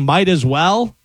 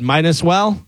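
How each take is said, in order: First: "might as well" with a clear T; "might as well", MITE-az-well; correct saying. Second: "might as well" said as mine-as-well; "might as well" turned into MINE-us-well, rising; misheard saying. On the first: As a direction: sound the T in "might", rising at the end. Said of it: "instead of saying". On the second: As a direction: put an N in place of the T in "might". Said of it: "one person said". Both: Shown as a demonstration.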